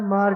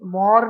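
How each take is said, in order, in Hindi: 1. इसे सादे हिंदी लहजे में बोला गया है। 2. इसे बंगाली लहजे में बोला गया है।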